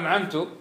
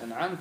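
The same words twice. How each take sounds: First: The word ends with a short 'tu' sound. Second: The word ends with a short 'ta' sound. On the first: I bestowed favor. The speaker calls it wrong. "اختل المعنى، كأن المتكلم يقول أنا الذي أنعمت" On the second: You bestowed favor. The speaker calls it right. "الله الذي أنعم"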